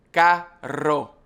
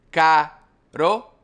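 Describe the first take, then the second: First: Carro with a long trilled R; rolled double R. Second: Caro said with one quick tap of the R; single tap R. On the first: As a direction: roll the R hard in carro. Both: Shown as a demonstration. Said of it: "the difference between the single R and the double R".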